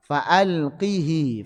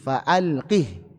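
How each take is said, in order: First: The word ends with a short vowel after h. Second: The word ends on a silent h, no vowel. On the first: This is the form with a vowel on the pronoun. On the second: This is how our narration reads it.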